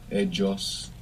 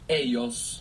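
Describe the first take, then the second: First: The double L has a J-like sound. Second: The double L has a plain Y sound. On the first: "You might hear like a J kind of sound in Colombia" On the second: "double L and Y make Y"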